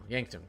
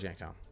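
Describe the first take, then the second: First: The name ends with a short 'tun' sound. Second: The name ends with a full 'town' sound. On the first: The speaker calls it right. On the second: The speaker calls it wrong. "Not Yanktown"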